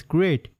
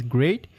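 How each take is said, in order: First: Said in the usual way. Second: Mildly surprised "Great?", rising at the end; surprised question. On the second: Acted. Girl taken aback by teacher's approval, mildly surprised question. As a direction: question it with a small upward lift. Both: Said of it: "And then she's surprised".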